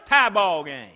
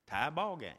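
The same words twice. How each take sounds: First: Loud, triumphant score call; shouted score. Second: Said in the usual way. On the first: Acted. Preacher shouting the tied score to the congregation, loud. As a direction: call it over the crowd roar. Crowd erupts after tying shot.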